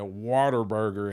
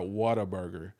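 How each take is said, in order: First: The first part sounds like the word water. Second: The first part sounds like whatta, not water. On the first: The speaker calls it right. "you're supposed to say a Waterburger" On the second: The speaker calls it wrong. "and not Whataburger"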